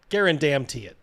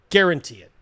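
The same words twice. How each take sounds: First: "Guarantee" broken up with "damn" before its last syllable; emphatic infix. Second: Said in the usual way. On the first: Real, not acted. Commentator doubling down on his claim, "Guarantee" stretched emphatically. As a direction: draw out "Guarantee", splitting it for an inserted "damn".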